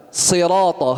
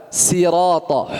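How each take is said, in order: First: "Sirata," said with a thick emphatic s; thick, heavy sad at the start of "Sirata,"; heavy sad sound. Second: "sirata," said with a thin plain s; thin s at the start of "sirata,"; wrong sin sound. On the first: Teacher showing students the correct heavy sad. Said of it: "harus sad". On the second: Teacher showing students the common thin-s mistake. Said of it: "Biasa orang baca". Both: Shown as a demonstration.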